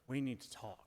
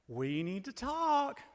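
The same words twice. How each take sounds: First: The tone is serious and ominous. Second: The tone is bright and excited. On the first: Something bad is coming. "You know something is up" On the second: Something good is coming. "which is exciting"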